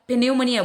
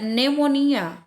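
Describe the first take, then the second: First: The initial P is pronounced. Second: The initial P is silent. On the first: The speaker calls it wrong. "ini tidak disebutkan pneumonia, bukan ya" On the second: The speaker calls it right. "Sama dengan kata pneumonia"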